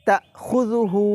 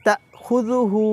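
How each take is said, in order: No difference in how they are said.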